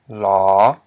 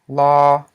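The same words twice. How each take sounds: First: The word is said with a rising tone. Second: The word is said with a high tone. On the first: "It's a rising tone" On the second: "pronounced with a high tone"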